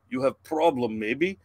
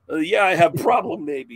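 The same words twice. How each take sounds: First: Lightly voiced Russian stranger; imitated Russian accent. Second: Loud, higher comeback parroting the stranger; mocking echo. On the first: Russian guy behind the family butting in, light mock Russian accent. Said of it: "this Russian guy behind us". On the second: Dad snapping back at the Russian stranger, loud mocking echo. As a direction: throw his broken English back at him louder. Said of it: "He's like, "You have problem, maybe?".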